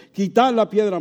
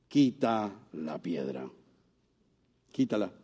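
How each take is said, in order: First: "Quitad" pushed out louder and higher; firm command. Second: Low, soft, slow "Quita la piedra"; hushed command. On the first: Preacher voicing Jesus ordering the stone moved, firm command. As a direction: call the order out to the crowd. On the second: Preacher voicing Jesus at the tomb, hushed slow command. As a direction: speak the order softly and slowly, almost to yourself. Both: Acted.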